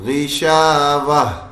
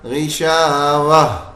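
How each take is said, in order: First: The word ends with a silent, stopped h. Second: The word ends with a silent, stopped h.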